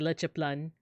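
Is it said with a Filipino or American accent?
Filipino. It is said with a Filipino accent.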